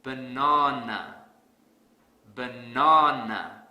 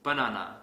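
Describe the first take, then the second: First: BaNAna, the NA hit very hard and loud; slow, punch the middle of Banana; Banana with an overdone stressed NA; heavy stress on second syllable. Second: Banana with no stress on the second syllable; banana, middle syllable not stressed; unstressed second syllable. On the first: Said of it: "I will stress the second syllable really hard". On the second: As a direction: say banana with flat, even syllables. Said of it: "Let's say I pronounce this word as banana". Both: Shown as a demonstration.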